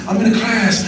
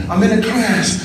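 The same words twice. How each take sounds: The two takes are said the same way.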